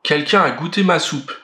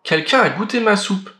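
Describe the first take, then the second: First: It is said in a big, deep voice. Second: It is said in a medium voice.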